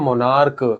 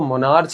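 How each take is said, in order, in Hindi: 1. ch का उच्चारण 'k' की आवाज़ जैसा होता है। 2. ch का उच्चारण 'church' जैसा होता है। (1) "सी एच को का बोला गया है" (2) "इसको मोनार्च नहीं पढ़ेंगे"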